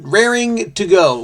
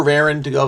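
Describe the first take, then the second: First: "raring" with the final -ing fully sounded; "raring" with its G kept; full -ing ending. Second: "raring" said as rarin', ending in a plain n; casual "raring" with an -in ending; dropped G. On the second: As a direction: drop the G at the end of "raring". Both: Shown as a demonstration. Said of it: "we get the G".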